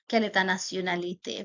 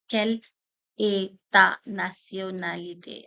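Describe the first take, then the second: First: The question is said at a faster pace. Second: The question is said at a slower pace.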